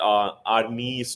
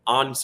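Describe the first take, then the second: First: The name ends in an 'ee' vowel. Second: The name ends on the consonant, no vowel. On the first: The speaker calls it wrong. "Not आर्नी स्लॉट" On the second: The speaker calls it right. "आर्न स्लॉट जो हॉलैंड में बोला जाता है"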